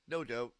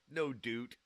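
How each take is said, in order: First: The vowel in doubt sounds like ow. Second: The vowel in doubt sounds like oo. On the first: The speaker calls it right. "It's doubt" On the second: The speaker calls it wrong. "I don't say doot"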